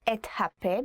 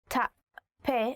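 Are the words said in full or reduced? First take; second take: full; reduced. First: Each word is said fully and distinctly. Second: The words are run together in a reduced form. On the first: It sounds too polite. The speaker calls it wrong. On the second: It sounds properly rude. The speaker calls it right.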